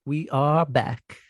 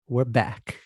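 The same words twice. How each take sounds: First: ARE drawn out and slower, falling; stress on ARE. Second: Said in the usual way. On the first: Shown as a demonstration. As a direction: lean on the word are, slowly.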